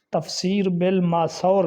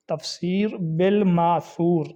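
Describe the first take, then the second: First: بالماثور ending "-saur"; common mispronunciation. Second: بالماثور ending "-soor", said slowly; careful long oo ending on بالماثور; correct pronunciation. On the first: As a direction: say تفسیر بالماثور as "tafseer bil-maasaur". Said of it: "سا پر زبر پڑھتے ہیں". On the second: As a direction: slowly say تفسیر بالماثور as "tafseer bil-maasoor". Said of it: "سا کے اوپر پیش ہے". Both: Shown as a demonstration.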